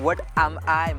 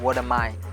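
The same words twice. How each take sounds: First: It is said with a non-native English accent. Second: It is said with a native-like English accent. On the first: The speaker calls it wrong. "इसको what am I मत बोलो" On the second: The speaker calls it right. "इसको बोलो what am I"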